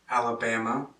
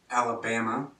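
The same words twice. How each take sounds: Both takes have the same delivery.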